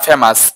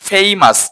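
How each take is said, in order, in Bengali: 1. প্রথম স্বরধ্বনিটি একটি সাধারণ ছোট 'e'। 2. প্রথম স্বরধ্বনিটি একটি গড়িয়ে যাওয়া 'ay' উচ্চারণ। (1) "নট ফেমাস" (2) "এটা উচ্চারণ হচ্ছে ফেইমাস"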